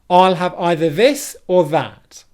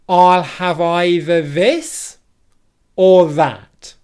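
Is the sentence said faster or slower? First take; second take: faster; slower. First: The sentence is said at a quicker pace. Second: The sentence is said at a slower pace.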